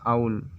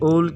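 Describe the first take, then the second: First: The vowel sounds like 'ow', a gliding vowel. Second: The vowel sounds like 'oh', a single vowel. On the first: The speaker calls it right. "इसे pronounce किया जाता है आउल।" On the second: The speaker calls it wrong. "अक्सर हमेशा इसे ओल ओल pronounce करते हैं, ये गलत है।"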